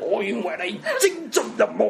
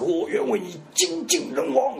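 First: It is said in Cantonese, imitating the film. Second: It is said in Mandarin.

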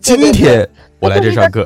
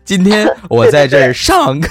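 First: The stress is on 今天. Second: The stress is on 上课.

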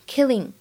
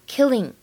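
Both takes have the same delivery.

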